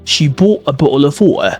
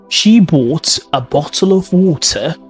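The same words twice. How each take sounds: First: The T sounds are replaced by glottal stops. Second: The T sounds are clearly pronounced. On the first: "What about Cockney accent, which is a glottalization?" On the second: "That's in modern received pronunciation"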